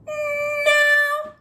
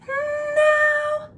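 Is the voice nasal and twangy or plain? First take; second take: nasal twangy; plain. First: It is said with a bright nasal twang. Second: It is said without a nasal twang.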